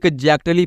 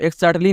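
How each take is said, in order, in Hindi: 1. x का उच्चारण 'gz' होता है। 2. x का उच्चारण 'ks' होता है। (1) "इग एग्जैक्टली पढ़ना" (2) "इसे आपको एक्सैक्टली नहीं पढ़ना दोस्तों"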